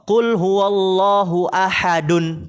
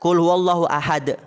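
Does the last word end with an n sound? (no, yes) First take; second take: yes; no. First: The last word ends with an added n sound. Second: The last word ends without any n sound. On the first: "Tanwin bukan?" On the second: "kalau diberhenti berhenti kan dia"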